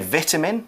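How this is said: It is said in the UK pronunciation.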